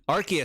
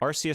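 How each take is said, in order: First: The first syllable does not sound like 'arse'. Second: The first syllable sounds like the word 'arse'. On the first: The speaker calls it right. "Arceus sounds cool" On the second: The speaker calls it wrong. "Arceus sounds stupid. Sounds like you're saying arse"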